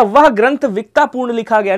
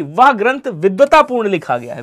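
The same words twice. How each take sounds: First: विक्तापूर्ण said as vik-taa-poorn, the wrong way; wrong pronunciation. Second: विद्वतापूर्ण said clearly as vid-va-taa-poorn; correct pronunciation. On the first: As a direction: say विक्तापूर्ण with a k sound, like a careless student. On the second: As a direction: carefully sound out विद्वतापूर्ण with the dv cluster. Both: Shown as a demonstration. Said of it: "विक्तापूर्ण नहीं बोलेंगे".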